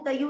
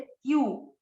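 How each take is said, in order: First: A short vowel separates the t from the y. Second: The t joins directly onto the y. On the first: The speaker calls it wrong. "इसको कई लोग तयू तयू नहीं बोले" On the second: The speaker calls it right. "आधा त है"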